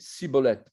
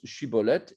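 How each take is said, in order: First: The word begins with an 's' sound. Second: The word begins with a 'sh' sound. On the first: The speaker belongs to the Ephraimites. "les Éphraïmites prononçaient Siboleth" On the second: The speaker belongs to the Gileadites. "les Giladides prononcent Shiboleth"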